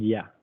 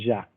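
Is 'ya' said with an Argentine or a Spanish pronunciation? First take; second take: Spanish; Argentine. First: The word is said with a Spanish pronunciation. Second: The word is said with an Argentine pronunciation. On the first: "nosotros no decimos ya" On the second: "decimos ya o, o ya"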